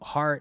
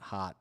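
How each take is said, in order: First: The word is said with a standard accent. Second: The word is said with a Boston accent.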